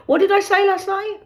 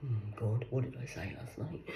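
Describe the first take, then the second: First: Higher, sugary polite question to caller; sweet phone voice. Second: Much softer aside, half to herself; muttered aside. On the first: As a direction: ask brightly, hiding the worry. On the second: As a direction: drop away from the phone, worried. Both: Acted.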